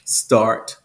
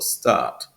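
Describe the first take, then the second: First: It is said in General American, R pronounced. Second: It is said in British RP, no R.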